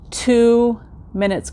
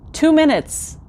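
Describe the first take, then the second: First: "two minutes" stretched out slowly; slow emphasis. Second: "Two minutes" jumps much higher in disbelief; incredulous repeat. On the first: Telling viewers how short the treadmill test was, slow stressed "two minutes". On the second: Repeating the short treadmill time to viewers, a high incredulous "Two minutes". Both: Shown as a demonstration.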